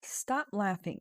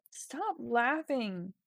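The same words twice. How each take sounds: First: Said in the usual way. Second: Slowly dictating Stop laughing to the screen; slow dictation. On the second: Shown as a demonstration. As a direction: Stop laughing drawn out slowly while typing. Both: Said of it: "that's a good idea".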